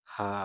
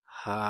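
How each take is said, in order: First: Said in the usual way. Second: হা pushed from the base of the throat, a bit loud; throaty glottal ha. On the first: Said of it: "এই হাটাকে আবার হা বলা যাবে না". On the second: Shown as a demonstration. Teacher correcting how হা must be read, throaty. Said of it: "এটাকে পড়তে হবে".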